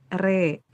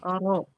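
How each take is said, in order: First: The vowel is tilted toward an 'e' sound. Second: The vowel is a full open 'a' sound. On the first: "kalau diimalahkan jadi ke e re" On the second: "Kalau ro fathah ro"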